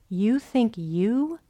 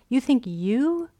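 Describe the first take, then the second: The two takes are said the same way.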